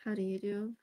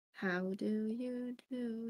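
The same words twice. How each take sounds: First: Said in the usual way. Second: Slow drawn-out "How do you do?" with a long "do"; posh greeting. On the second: Shown as a demonstration. Greeting the chat again, slow mock-formal how do you do. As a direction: stretch it like a formal lady.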